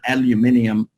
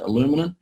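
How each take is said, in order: First: The word is said the speaker's own way. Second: The word is said the listeners' way. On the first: This is how the speaker's own community says it. "what we call an aluminium" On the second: This is how the audience says it. "I think you guys pronounce it aluminum"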